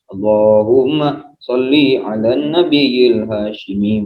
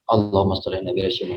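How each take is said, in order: First: It is recited in a slow, relaxed, drawn-out tone. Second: It is recited in a fierce, forceful, quick tone. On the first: It suits those who already have plenty. The speaker calls it wrong. "jangan dibaca" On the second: It is recited for winning battles and competition. The speaker calls it right. "harus dengan nada perang"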